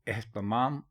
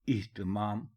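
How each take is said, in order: First: The first two vowels are 'a' sounds. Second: The first two vowels are 'i' sounds. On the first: The speaker calls it wrong. "एहतमाम गलत लफ्ज़ है" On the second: The speaker calls it right. "इह्तिमाम दुरुस्त लफ्ज़ है"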